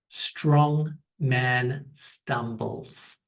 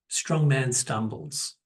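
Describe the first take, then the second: First: It is said slowly. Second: It is said more quickly.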